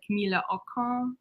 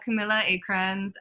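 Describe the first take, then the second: First: The name is said with a Swedish pronunciation. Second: The name is said with an American pronunciation. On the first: The speaker calls it right. "technically her name is pronounced like" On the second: The speaker calls it wrong. "I have an American pronunciation"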